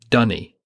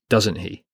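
First: The words are squashed into one short word, like 'dunny'. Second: The words are said in full, as 'doesn't he'. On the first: It is the Devon dialect form. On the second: It is the standard form.

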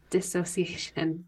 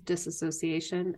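First: No extra syllable follows 'dis'. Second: An extra 'a' syllable follows 'dis'. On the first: The speaker calls it right. "there's no A. It is dissociation" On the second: The speaker calls it wrong. "Everyone says disassociation"

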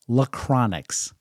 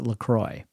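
First: The name has an added 'n' sound near the end. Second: The name has no 'n' sound near the end. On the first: The speaker calls it wrong. "my daughter Grace loved to pronounce it Lachronix" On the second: The speaker calls it right. "I would pronounce it LaCroix. So I do believe that is the correct pronunciation"

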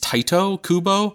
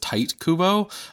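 First: The first name is two syllables, tai-to. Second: The first name is one syllable, like tight. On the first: "the pronunciation that I found from some of the Japanese magazines" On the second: "I always thought it was Tight Kubo"

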